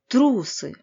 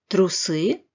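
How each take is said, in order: First: The ending is reduced as much as possible. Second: The ending is said fully, not reduced.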